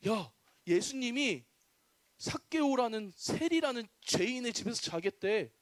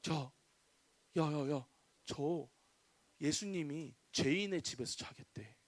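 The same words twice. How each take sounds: First: Mildly disapproving gossip, at normal volume; grumbling crowd. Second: Hushed, lowered voice of a gossiping crowd; murmuring gossip. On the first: Townspeople complain about a tax collector hosting Jesus, mild grumbling. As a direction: spread the news aloud as a mild complaint. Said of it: "이러면서 막 욕하기 시작했어요". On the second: Townspeople gossip about Jesus lodging with a sinner, hushed murmuring. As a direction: pass it on under your breath, low and soft. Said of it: "사람들이 수군대기 시작했어요". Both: Acted.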